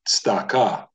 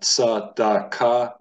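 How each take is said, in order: First: The first consonant runs straight into the next. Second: A full vowel follows the first consonant. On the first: The speaker calls it right. "a shva is not a full vowel" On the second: The speaker calls it wrong. "So it's not tzadaka"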